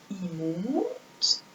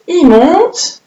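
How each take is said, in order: First: Softly drawn-out demo. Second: Said in the usual way. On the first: Shown as a demonstration. Teacher showing children the right stroke, hushed. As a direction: say il monte much softer, stretching monte. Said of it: "Un I, ce n'est pas comme ça". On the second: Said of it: "Allez, le I".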